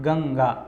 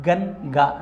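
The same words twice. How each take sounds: First: گنگا joined as gang-gaa, n hidden in the nose; hidden nasal n. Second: گنگا split as gan-gaa with a full n; wrong clear n. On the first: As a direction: blend the n of گنگا into the g. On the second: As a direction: separate a crisp n before the g in گنگا. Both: Shown as a demonstration. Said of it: "گنگا نہیں پڑھ رہے ہم".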